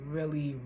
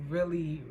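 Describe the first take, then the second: No difference in how they are said.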